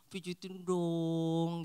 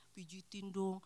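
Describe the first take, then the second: First: Put-on slow, whiny little-kid voice, louder; childlike plea. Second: Said in the usual way. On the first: Wife playfully asking partner for a massage, childish whine. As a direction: beg like a pampered child.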